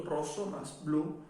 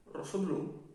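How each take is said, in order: First: "rosso más blu" slowly, in separate parts; two separate words. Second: "rosso blu" run together as one word; joined as one word. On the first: Teacher splitting the compound for students, "rosso más blu" slow and separated. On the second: Teacher showing the compound all together, "rosso blu" said as one word. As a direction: join "rosso blu" with no gap. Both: Shown as a demonstration. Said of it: "Está todo junto".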